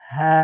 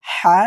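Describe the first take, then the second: First: হা with an open, plain H; big ha. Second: হা with a tight throat H, louder; small ha from mid-throat. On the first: Teacher contrasting it with the small letter, open হা. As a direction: let হা out with no throat squeeze. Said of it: "আগে ছোট হয়". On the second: Teacher showing where it sounds, throaty হা. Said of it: "হলকের মাঝখান থেকে উচ্চারণ হবে". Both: Shown as a demonstration.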